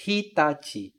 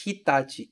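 First: "Hitachi" with the i fully voiced; wrong full vowel. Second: "Hitachi" with the first i almost silent; devoiced i. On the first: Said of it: "eu não falo". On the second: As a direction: let the i in "Hitachi" nearly vanish. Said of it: "ele quase some". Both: Shown as a demonstration.

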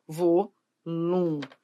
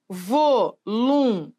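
First: Voluntários said slowly as one word, stress on tá; whole word. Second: Voluntários split slowly into syllables, vo-lun-tá-rios. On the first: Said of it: "separar as sílabas". (palavra inteira, devagar) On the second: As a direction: break voluntários apart slowly, one syllable at a time. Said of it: "primeiro que a gente vai ter que separar as sílabas". (separando as sílabas devagar) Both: Shown as a demonstration.

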